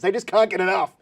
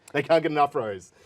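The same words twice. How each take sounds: First: Gleeful. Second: Said in the usual way. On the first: Acted. Hyping up clickbait success.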